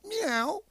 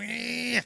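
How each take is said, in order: First: The meow sounds happy. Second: The meow sounds angry.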